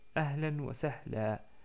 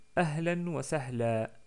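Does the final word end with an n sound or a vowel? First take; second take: vowel; vowel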